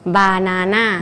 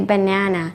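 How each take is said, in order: First: The stress falls where Thai speakers put it. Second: The stress falls where native English speakers put it. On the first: The speaker calls it wrong. "Thai people banana" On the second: The speaker calls it right. "native speaker they say banana"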